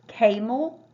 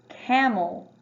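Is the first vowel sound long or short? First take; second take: long; short. First: The first vowel is a long A sound. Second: The first vowel is a short A sound. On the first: The speaker calls it wrong. "like the first one" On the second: The speaker calls it right. "in your short A"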